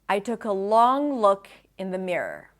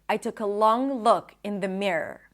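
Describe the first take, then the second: The two takes are said the same way.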